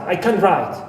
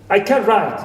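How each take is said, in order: Both takes have the same delivery.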